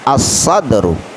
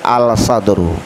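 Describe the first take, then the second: First: The L is silent, blending into the s. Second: The L is clearly pronounced before the s. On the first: The speaker calls it right. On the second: The speaker calls it wrong.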